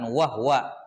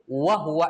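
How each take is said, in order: First: The h is followed directly by w. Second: The h is followed by a u vowel.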